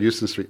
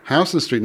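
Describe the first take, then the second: First: "Euston" said as YOO-stən; the outsider's "Euston", YOO-ston; YOO-ston pronunciation. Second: "Houston" said as HOW-stən; New York street-name "Houston", HOW-ston; HOW-ston pronunciation. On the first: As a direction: open "Euston" like the word "you". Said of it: "Nobody would understand you if you said". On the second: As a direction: open "Houston" like the word "house". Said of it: "do you say Houston Street". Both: Shown as a demonstration.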